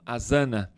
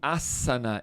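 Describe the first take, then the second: First: The middle consonant is a buzzing Z sound. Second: The middle consonant is a hissing S sound. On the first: The speaker calls it wrong. "e não asana" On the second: The speaker calls it right. "pronuncia-se asana"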